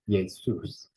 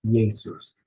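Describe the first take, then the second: First: The stress is on the second syllable. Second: The stress is on the first syllable. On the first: The speaker calls it right. "We have that stress on the second syllable" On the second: The speaker calls it wrong. "With the first syllable stressed"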